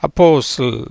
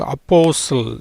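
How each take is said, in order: First: அப்போஸ்தல் repeated as posl, t silent; pronunciation demo. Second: அப்போஸ்தல் said softly, the t silent, as aposl; pronunciation demo. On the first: Teacher repeats அப்போஸ்தல் for students, t silent. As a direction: repeat அப்போஸ்தல் calmly, no t sound. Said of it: "எப்படி?". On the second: Teacher models அப்போஸ்தல் for students, t dropped. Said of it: "எப்படி வரும் உச்சரிப்பு?". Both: Shown as a demonstration.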